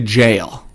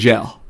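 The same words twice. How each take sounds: First: The vowel is a long 'ay' sound. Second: The vowel is a short 'eh' sound. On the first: "they don't say jail" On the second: "They say he's in jail. So there's no ale. It's always an E L L"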